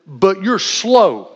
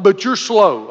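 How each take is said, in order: First: "But you're slow" drawn out slowly, SLOW leaned on; blunt truth. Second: Said in the usual way. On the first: Retold or imitated. Coach telling a slow kid the truth, dragged out slowly. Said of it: "I finally just got to the truth of it". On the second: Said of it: "I'm like".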